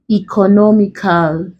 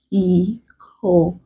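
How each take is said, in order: First: Said in the usual way. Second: ECONOMICAL as e-co-no-mi-cal with long gaps; broken into syllables. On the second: Shown as a demonstration. Teacher breaking a word for students, ECONOMICAL syllable by syllable. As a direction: say "economical" one isolated syllable at a time. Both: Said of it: "Let's break".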